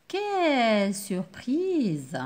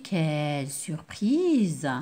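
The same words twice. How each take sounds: First: Drawn-out, very slow "Quelle surprise!"; slow exclaimed surprise; surprised exclamation. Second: Lower, slow "quelle surprise!"; slow amazed exclamation; surprised exclamation. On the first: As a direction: stretch it out in surprise. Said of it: "je marque la surprise". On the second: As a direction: savor the surprise slowly. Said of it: "Ou bien une surprise". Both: Shown as a demonstration.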